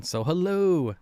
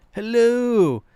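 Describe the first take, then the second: First: Said in the usual way. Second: Higher, louder put-on hello; a bad imitation of the fish seller's greeting; Dan's Fish impersonation. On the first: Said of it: "That's my Dan's Fish impersonation". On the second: Streamer doing a poor imitation of Dan greeting. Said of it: "That's my Dan's Fish impersonation, but it's not very good".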